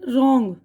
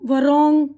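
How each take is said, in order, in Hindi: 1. शब्द सीधे r से शुरू होता है। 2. r से पहले w की आवाज़ आती है। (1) "अब देखिए इसका तलफ़ुज़ क्या है" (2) "ये तो नहीं बोल रहे हैं ना"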